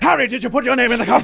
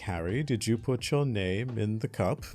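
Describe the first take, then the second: First: It is said in an agitated voice. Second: It is said in a calm voice.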